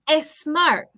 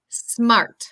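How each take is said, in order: First: An extra vowel is added before the s. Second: The word starts directly with a strong s. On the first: The speaker calls it wrong. "the tendency is to say e" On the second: The speaker calls it right. "Tenemos como una letra S bien pronunciado"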